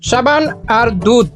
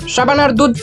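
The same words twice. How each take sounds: First: The phrase is said slowly and carefully. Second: The phrase is said quickly and hurriedly. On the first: "আরে ধীরে ধীরে তো সবাই বলতে পারে" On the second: "পারলে তুই তাড়াতাড়ি বলে দেখা।"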